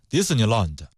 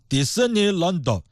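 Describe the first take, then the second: First: Said in the usual way. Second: Disneyland said slowly in a mock Japanese accent, the light consonants hit hard. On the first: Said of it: "比方说迪士尼乐园，Disneyland". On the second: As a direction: imitate a Japanese speaker on Disneyland, every consonant heavy. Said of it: "他们一翻".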